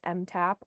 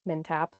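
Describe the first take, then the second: First: The first part is said as the letter M. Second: The first part is said as the syllable 'min'. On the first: The speaker calls it wrong. "sometimes people will call us M TAP" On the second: The speaker calls it right. "but MinTap"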